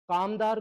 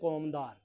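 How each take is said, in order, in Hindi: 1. पहला स्वर खुला 'aa' है। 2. पहला स्वर गोल 'au' है।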